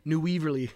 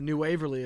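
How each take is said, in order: First: The first vowel sounds like 'wee'. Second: The first vowel sounds like 'way'. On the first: The speaker calls it wrong. "they were like, New Weaverly. And I was like, it's not a weasel" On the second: The speaker calls it right. "they were talking about New Waverly as well"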